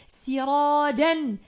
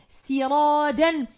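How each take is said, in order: No difference in how they are said.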